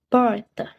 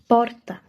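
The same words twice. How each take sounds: First: The r is curled back with the tongue. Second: The r is a single quick tongue tap. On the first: "o R retroflexo... É assim que ele soa" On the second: "Essa a pronúncia do R tep"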